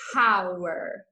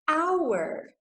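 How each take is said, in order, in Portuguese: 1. A palavra começa com som de H. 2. A palavra começa com som de vogal. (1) "eu não falo hour" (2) "eu falo a, hour ... palavra com som de vogal"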